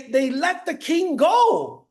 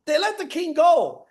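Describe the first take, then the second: First: Drawn out, each word weighted; slow way down for effect; slow emphasis. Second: Said in the usual way. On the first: Shown as a demonstration. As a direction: stretch it to land the twist.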